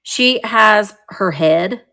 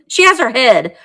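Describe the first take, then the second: First: Said in the usual way. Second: Laughing. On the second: Real, not acted. Repeats it with a laugh.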